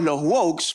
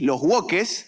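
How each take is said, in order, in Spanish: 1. La palabra se pronuncia con sonidos ingleses. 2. La palabra se pronuncia con sonidos españoles. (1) "queremos hacernos los que, los que sabemos hablar inglés" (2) "como les dicen en España que no les gusta pronunciar el inglés"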